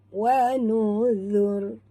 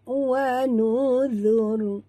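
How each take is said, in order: First: The consonant is a soft 'th' sound. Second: The same.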